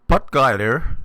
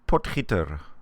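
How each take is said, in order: First: The name is said the North American way. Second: The name is said the Afrikaans way. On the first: The speaker calls it wrong. "Potgieter is wrong" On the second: The speaker calls it right. "it's an Afrikaans name, so we it, it, or it is pronounced Potgieter"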